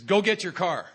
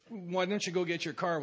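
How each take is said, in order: First: "Go get your car." barked higher and louder; curt order. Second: A courteous ask, not an order; phrase "go get your car" as a gentle question; polite request. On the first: The sponsor ordering the newcomer, curt bark. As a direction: give it as a flat command, no please. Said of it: "Well, he says". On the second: The sponsor asking nicely what he never asked, polite request. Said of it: "he wouldn't ask me". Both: Retold or imitated.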